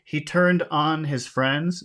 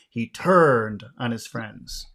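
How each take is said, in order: First: The stress falls on the word on. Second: The stress falls on the word turned. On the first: He made his friends sexually excited. "if you emphasize on, you're doing a literal phrasal verb" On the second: He betrayed his friends. "you have to emphasize the word turn to use the abstract meaning"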